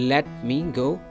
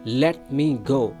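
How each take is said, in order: Both takes have the same delivery.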